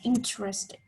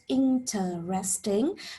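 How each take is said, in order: First: The word is shortened to three syllables. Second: The word is said with four full syllables. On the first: "to just three" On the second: "four syllables"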